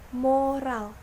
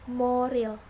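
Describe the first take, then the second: First: The second vowel is a. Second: The second vowel is i. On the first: The speaker calls it right. "Lafal bakunya yaitu moral" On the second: The speaker calls it wrong. "sedangkan lafal tidak bakunya yaitu moral"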